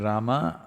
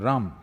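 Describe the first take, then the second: First: The word ends with a final vowel. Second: The word ends without a final vowel. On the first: "If you say" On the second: "they'll say"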